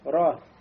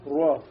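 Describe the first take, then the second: First: The vowel is open with unrounded lips. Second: The vowel is rounded, drifting toward an o sound. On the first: The speaker calls it right. "Просто открываем рот, да, побольше, но не делаем губы кольцом" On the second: The speaker calls it wrong. "Но не говорим, да, ро. Тогда уже будет фатха и переходящая в дому"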